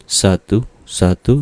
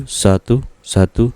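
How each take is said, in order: Both takes have the same delivery.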